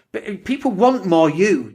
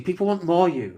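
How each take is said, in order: First: Want slow and drawn out; stress on want. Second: More hit and falling; more gets the weight, the rest softer; stress on more. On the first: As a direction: lean on the word want, slowly. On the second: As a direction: punch the word more. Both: Shown as a demonstration.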